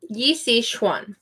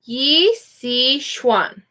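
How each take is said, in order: First: "Yi Si Xuan" said again softer and a little faster, Xuan as "shwan"; a soft model repeat of "Yi Si Xuan"; quieter repeat of the name. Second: "Yi Si Xuan" said slowly, with the X as an SH sound, "shwan"; slow Mandarin name. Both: Shown as a demonstration. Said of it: "when you see the X, it makes an S H sound".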